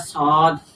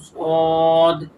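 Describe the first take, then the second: First: The word is said with a light, thin sound. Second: The word is said with a heavy, thick sound. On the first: The speaker calls it wrong. "ये गलत है पढ़ना" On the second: The speaker calls it right. "ये पुर पढ़ा जाता है"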